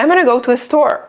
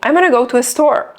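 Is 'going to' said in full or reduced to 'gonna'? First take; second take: Reduced; Reduced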